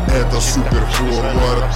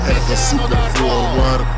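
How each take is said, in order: Both takes have the same delivery.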